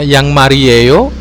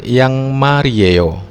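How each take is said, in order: First: The pitch rises at the end like a question. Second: The pitch falls at the end like a statement. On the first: Are they socks? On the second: They are socks.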